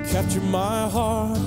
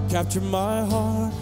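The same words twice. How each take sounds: The two takes are said the same way.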